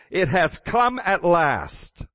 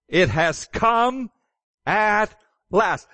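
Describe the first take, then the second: First: Said in the usual way. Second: Higher, slow proclamation; heavenly voice proclaiming. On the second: Acted. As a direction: announce it slowly like a voice from heaven. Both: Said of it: "Here's the voice".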